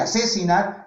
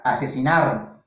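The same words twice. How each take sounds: First: "Asesinar" with the second syllable "se" punched higher, as if accented; "Asesinar" lifted early on "se"; stress on second syllable. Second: "asesinar" said lower, running through to a stressed last syllable "nar"; "asesinar" with no early lift on "se", falling; even, final-syllable stress. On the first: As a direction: lean on "se" in "Asesinar", a-SE-sinar. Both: Shown as a demonstration. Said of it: "La entonación, la entonación".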